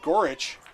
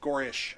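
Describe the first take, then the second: First: The name ends with a 'ch' sound. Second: The name ends with an 'sh' sound. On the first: The speaker calls it wrong. "it's not Gorich" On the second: The speaker calls it right. "Gorish, sorry. Check my pronunciation guide there"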